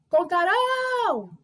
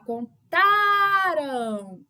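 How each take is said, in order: First: The stress is on the last syllable. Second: The stress is on the middle syllable. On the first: The action will happen in the future. "nós temos a sílaba tônica rão" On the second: The action happened in the past. "a nossa sílaba tônica é o tá"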